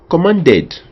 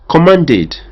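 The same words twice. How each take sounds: First: The ending is said with an e sound. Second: The ending is said with a short i sound. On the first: "certains diront commanded" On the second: "son passe participe est commanded"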